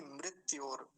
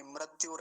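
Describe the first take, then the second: First: मृत्योर as mrit-yor; clear ri. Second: मृत्योर as mrat-yor. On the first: Teacher correcting the mistake, clear ri. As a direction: give मृत्योर a clear mri. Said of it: "रिकार का ध्यान रखेंगे अच्छे से". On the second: Teacher repeating the mistake, ra for ri. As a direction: put an a after mr in मृत्योर. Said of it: "ऐसा नहीं". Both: Shown as a demonstration.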